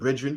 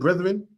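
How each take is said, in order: First: The word is pronounced in a mangled, nonstandard way. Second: The word is pronounced the usual standard way.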